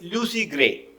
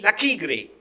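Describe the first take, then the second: First: The first name is said without a k sound. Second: The first name is said with a k sound. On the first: The speaker calls it right. "the correct pronunciation is Lucy" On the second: The speaker calls it wrong. "the boy was reading Lucky Gray"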